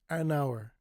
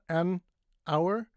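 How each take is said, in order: First: The n runs straight into the next word. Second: The two words are said separately. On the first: The speaker calls it right. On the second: The speaker calls it wrong.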